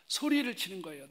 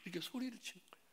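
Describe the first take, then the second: First: Said in the usual way. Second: Fast, high, softer aside; quick aside. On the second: Real, not acted. Preacher tells congregation how mother yelled, quick soft aside. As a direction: toss it off quickly and quietly, pitched high. Repeats the tag, quick and hushed.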